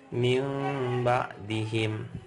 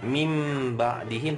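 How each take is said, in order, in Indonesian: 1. Huruf m sedikit tertutup dan samar, terdengar sengau. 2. Huruf m tertutup rapat dan terucap jelas. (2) "Ini nggak boleh dibaca mim jelas, bukan"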